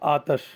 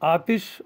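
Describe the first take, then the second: First: The vowel after the t is 'a'. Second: The vowel after the t is 'i'. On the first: "ते पे ज़बर" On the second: "ते के नीचे जेर"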